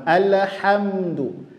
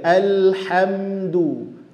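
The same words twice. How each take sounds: First: The l sound bounces with an echo. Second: The l sound is held without bouncing. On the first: The speaker calls it wrong. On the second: The speaker calls it right.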